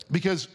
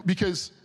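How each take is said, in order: Both takes have the same delivery.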